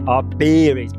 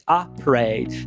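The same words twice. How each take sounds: First: The first vowel of parade is a full E. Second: The first vowel of parade is a schwa. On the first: The speaker calls it wrong. "você quer falar E, né?" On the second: The speaker calls it right. "nesse caso aqui, por exemplo, é um schwa"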